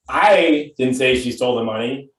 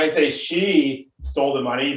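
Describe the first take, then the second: First: The stress is on "I". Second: The stress is on "she".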